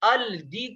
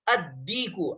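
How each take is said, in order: First: The L is pronounced before a single D. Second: The L is silent and the D is doubled. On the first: The speaker calls it wrong. "लाम पर जज़म लगाकर पढ़ना यहाँ पर गलत है" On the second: The speaker calls it right. "लाम को साइलेंट करेंगे और ... तशदीद लगाकर इसको पढ़ेंगे"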